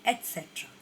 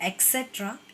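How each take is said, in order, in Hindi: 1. यह शब्द 'et' ध्वनि से शुरू होता है। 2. यह शब्द 'eks' ध्वनि से शुरू होता है। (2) "नॉट एक्सेट्रा"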